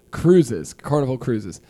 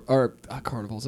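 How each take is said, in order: First: Cruises said clearly as the correction; corrected word. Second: Carnivals said by mistake for cruises, dropping softer; wrong word. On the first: Correcting himself to the friends, a clear cruises. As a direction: land on cruises, fixing the slip. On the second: Misspeaking about cruises, a quiet slip on carnivals. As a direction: slip on carnivals, then trail off. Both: Real, not acted. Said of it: "I'm sorry".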